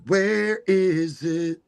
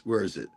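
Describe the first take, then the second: First: Higher and slow, sing-song; drawn-out mock search. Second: Said in the usual way. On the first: Host hunting the fairgrounds on a map, sing-song. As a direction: stretch it like a puzzled game.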